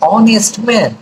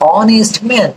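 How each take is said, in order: No difference in how they are said.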